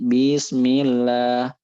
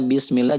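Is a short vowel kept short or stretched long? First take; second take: long; short. First: A short vowel is stretched out long. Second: Its short vowels are kept short. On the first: The speaker calls it wrong. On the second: The speaker calls it right.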